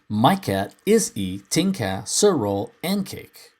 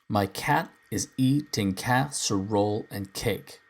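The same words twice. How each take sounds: First: Stresses fall on the normally unstressed syllables. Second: Stresses fall on the normally stressed syllables. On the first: The speaker calls it wrong. "reverse the stressed and unstressed syllables" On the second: The speaker calls it right. "This is really the only way to say this line"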